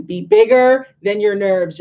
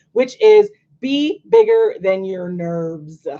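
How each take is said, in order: First: "bigger" stressed, falling at the end; firm restated motto; repeated motto. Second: Which is be bigger than your nerves, slowly and firmly; slow, weighty motto; slow emphatic motto. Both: Shown as a demonstration. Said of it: "I'm gonna say it again".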